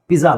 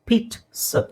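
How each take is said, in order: First: The middle consonant is a voiced 'dz' sound. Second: The middle consonant is a voiceless 'ts' sound. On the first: The speaker calls it wrong. "ಪಿಜ್ಜಾ ಅಲ್ಲ" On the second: The speaker calls it right. "It's ಪೀಟ್ಸ್"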